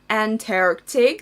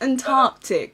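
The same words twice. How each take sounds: First: It is said with an American accent, with r. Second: It is said with a British accent, without r. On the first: "вот это американское" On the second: "Do the English pronunciation"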